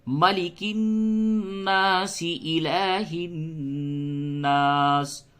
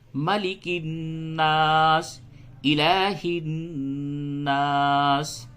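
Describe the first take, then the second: First: The two phrases run together without a pause. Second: There is a stop after the first phrase.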